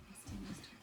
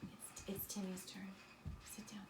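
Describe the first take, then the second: First: Said in the usual way. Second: Breathless hushed whisper, no voice. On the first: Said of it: "repeated softly but voiced". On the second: Real, not acted. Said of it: "teacher hushes eager child".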